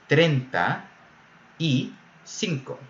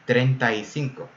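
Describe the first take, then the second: First: The three words are said clearly apart. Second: The three words run together into one. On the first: "What the person is really saying is" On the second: "these three words get blended together"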